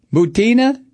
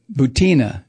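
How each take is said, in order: First: "Butina?" tried out as boo-TEE-nuh, rising, unsure of the name; unsure pronunciation. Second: "Butina." said firmly as boo-TEE-nuh with a hint of Russian flavour, falling; settled pronunciation. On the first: Real, not acted. Checking the spy's surname aloud, unsure rising question. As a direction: test the name out loud, asking. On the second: Shown as a demonstration. Settling how to say the spy's name, firm and final. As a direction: land the name with a touch of Russian. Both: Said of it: "B U T?".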